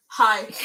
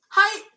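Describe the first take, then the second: First: Said in the usual way. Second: "Hi" pitched high and loud as Norwegian hei; Norwegian greeting. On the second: Shown as a demonstration. Teacher repeating a Norwegian greeting for learners, high-pitched "Hi". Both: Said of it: "it sounds very similar".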